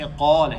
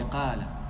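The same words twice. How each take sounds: First: The q is heavy and thick, with a full mouth. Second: The q is light and thin, without fullness. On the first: The speaker calls it right. "He doesn't say qala" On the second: The speaker calls it wrong. "He says qala"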